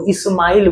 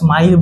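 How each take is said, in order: First: An extra vowel sound comes before the s. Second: The word starts directly with the s sound. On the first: The speaker calls it wrong. "ई करके बोलते हैं ... तो ये गलत है" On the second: The speaker calls it right. "इसका स्माइल बोलेंगे"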